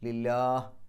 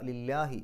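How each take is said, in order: First: The word ends on the final consonant. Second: The word ends with a short final vowel. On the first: The reading stops here. "നിർത്തുകയാണെങ്കിൽ ലില്ലാഹ്" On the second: The reading continues without stopping. "നിർത്താതെയും ഓതാം"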